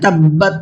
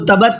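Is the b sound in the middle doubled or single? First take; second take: doubled; single. First: The b sound is held and doubled. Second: The b sound is short and single. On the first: The speaker calls it right. "बा को डबल पढ़ना है" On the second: The speaker calls it wrong. "इसको तबत नहीं पढ़ना है"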